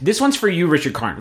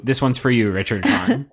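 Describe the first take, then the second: First: Dedication. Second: Tagline read. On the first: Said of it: "this musical stinger is an ode". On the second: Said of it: "change the tagline". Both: Acted.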